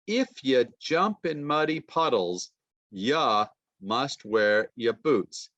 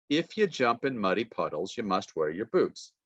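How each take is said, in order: First: You and your reduced to ya, slow and relaxed; informal reduced speech. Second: Said in the usual way. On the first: Shown as a demonstration. Teacher reading to class in casual reduced ya form. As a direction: let the pronouns slide into ya. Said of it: "that sounds uneducated". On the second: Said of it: "formal and informal speech".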